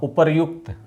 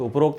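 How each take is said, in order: First: The middle sounds like 'ryukt'. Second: The middle sounds like 'rokt'. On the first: The speaker calls it right. "क्या होता? उपर्युक्त" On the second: The speaker calls it wrong. "उपरोक्त नहीं होता"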